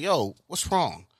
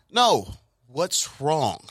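First: Said in the usual way. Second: Drawn-out, slow "No", then "what's wrong" pressed; gentle insistence. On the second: Retold or imitated. Uncle presses the nephew for answer.

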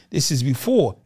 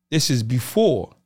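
The two takes are said the same way.

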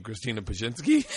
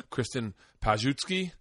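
First: Said in the usual way. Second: Mispronounced "Kristen Pajutsky", JUT in the middle; fumbled name. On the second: Retold or imitated. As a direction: say the surname as "Pajutsky". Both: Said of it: "could not pronounce her name".

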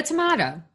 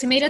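First: "tomato" said tuh-MAH-toh; "tomato" with stressed MAH syllable; British-style pronunciation. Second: "Tomato" said tuh-MAY-toh; "Tomato" with stressed MAY syllable; American pronunciation. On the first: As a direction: say "tomato" with an AH in the middle. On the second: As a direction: say "Tomato" with an AY in the middle. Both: Shown as a demonstration. Two pronunciations, saying both are fine.

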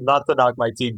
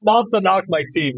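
First: Said in the usual way. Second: Pitched high, pushed out with a laugh; emphatic disclaimer. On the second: Real, not acted. Host cutting in about his own team, high emphatic disclaimer. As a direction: blurt it high and quick.

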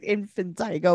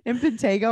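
First: "infantigo" with TIE in the third syllable; mistaken pronunciation. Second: "Infantago" with TAY in the third syllable; corrected pronunciation. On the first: Preferring co-host's version, "infantigo" said with a TIE. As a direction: say "infantigo" with a long I before the go. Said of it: "I like infantigo better". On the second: Correcting co-host's word, "Infantago" said with a TAY. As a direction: say "Infantago" with a long A before the go. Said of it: "are you trying to say?". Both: Shown as a demonstration.

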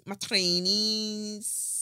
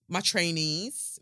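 First: Higher, drawn-out Scouse accent. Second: Said in the usual way. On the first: Shown as a demonstration. Host showing listeners her trainers, mock Scouse accent. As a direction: stretch it out in a put-on Scouse accent. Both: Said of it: "that's my Scouse accent".

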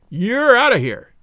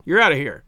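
First: Higher, louder, slower "You're out of here."; emphatic ejection. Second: Said in the usual way. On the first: A narrator's reading. Umpire repeating the ejection to the captain, loud and slow. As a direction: slam it down slowly so he can't argue.

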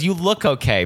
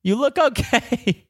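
First: Put-on higher, doubtful old lady voice; old lady unsure about a runner; imitating old lady. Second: Put-on very high, slow old lady voice; old lady reassuring a runner; imitating old lady. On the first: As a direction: hesitate like a kind old lady. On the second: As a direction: stretch it out sweetly. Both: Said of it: "she goes".

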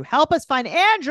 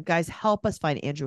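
First: Andrew called out higher and louder; louder appeal. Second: Said in the usual way. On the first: Real, not acted. Host pleading with listeners to find Andrew, called out louder. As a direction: call it out to the audience.

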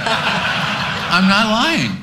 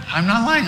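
First: Drawn out slowly through real laughter; laughing protest. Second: Said in the usual way. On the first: Real, not acted. Insisting while laughing.

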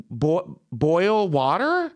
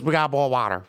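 First: Slow, high, questioning "boil water?"; stumble, then sound out "boil water" as a rising question; puzzled echo. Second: Imitated Memphis waitress accent on "boil water"; thick Memphis accent. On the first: Retold or imitated. Baffled echo of waitress's accented words. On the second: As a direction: say "boil" as "bawl", Memphis style. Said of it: "she had a very thick accent".

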